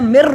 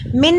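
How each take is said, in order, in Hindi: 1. अंतिम n, r में मिल जाता है। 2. अंतिम n स्पष्ट रूप से बोला जाता है। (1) "मैंने मिर पढ़ा" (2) "मिन नहीं पढ़ा"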